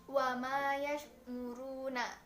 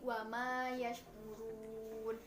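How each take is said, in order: First: The phrase ends with a final vowel. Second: The phrase stops on a final consonant.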